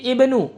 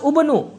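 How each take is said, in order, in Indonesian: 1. Vokal pertama adalah bunyi 'i' depan. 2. Vokal pertama adalah bunyi 'u' yang dibulatkan. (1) "kita baca menjadi ibnu" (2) "bukan lafaz ubnu"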